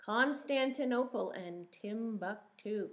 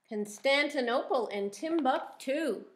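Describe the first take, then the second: First: Said in the usual way. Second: Read-aloud. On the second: Shown as a demonstration. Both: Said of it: "Can you say that?".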